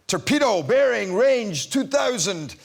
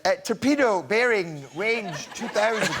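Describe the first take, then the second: First: Slow, clipped military report; naval officer line. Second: Slow, high, mincing take on the report; lightly camp up the torpedo line; effeminate delivery. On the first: Recalling her Bond line, slow naval report. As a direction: read it out like a quartermaster on the bridge. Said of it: "So my lines were". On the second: Mocking the actor who got her line, slow and camp. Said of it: "was really quite effeminate". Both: Retold or imitated.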